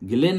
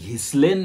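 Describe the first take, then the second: First: The name is said without an 's' sound. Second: The name is said with an 's' sound. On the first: The speaker calls it right. "त्याचं उच्चारण गिलेन Maxwell असं आहे" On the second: The speaker calls it wrong. "आपण त्याचं घिस्लेन Maxwell वगैरे असं उच्चारण करायचं नाही"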